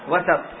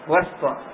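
First: The s sound is followed by a short a. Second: The s sound has no vowel after it. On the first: It refers to the middle of something solid. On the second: It refers to a place among separate parts.

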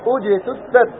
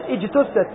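First: The opening hamza is spoken with a u vowel. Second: The opening hamza is spoken with an i vowel. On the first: The speaker calls it right. "فإن كان ثالثه مضموما ضما لازما، نبدأ بالضم" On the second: The speaker calls it wrong. "يقول اجتثت، إي خطأ، خطأ تكسر الهمزة هنا"

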